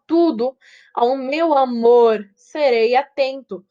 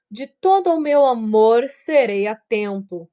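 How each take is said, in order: First: "Tudo ao meu amor serei atento" read slowly, leaning on "amor" and "atento"; slow scansion, hitting "amor" and "atento" harder; scanning the verse. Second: Said in the usual way. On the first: Shown as a demonstration. Teacher scanning a verse for students, slow and stressed. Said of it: "eles são mais fortes". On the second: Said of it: "Por mais que de tudo, tá vendo?".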